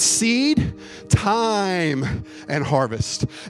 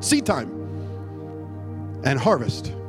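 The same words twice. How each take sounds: First: Seed and time are separated by a pause. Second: Seed and time run together as one word.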